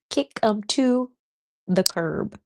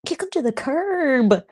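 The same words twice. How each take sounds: First: Said in the usual way. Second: Higher, slow and punchy "kick 'em to the curb"; emphatic. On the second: Real, not acted. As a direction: send them packing with gusto. Repeats the phrase.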